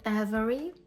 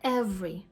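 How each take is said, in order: First: All three syllables are pronounced fully. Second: A syllable is dropped, giving two syllables. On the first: "може звучати як every" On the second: "може звучати скорочено як every"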